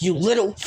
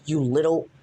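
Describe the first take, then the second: First: You little said louder, half-yelled; yelling as Vin. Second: Said in the usual way. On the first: Retold or imitated. Vin furious at Eddie, You little half-yelled. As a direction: spit out You little in anger. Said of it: "when I'm yelling, that's Vin". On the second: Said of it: "that's what Vin says".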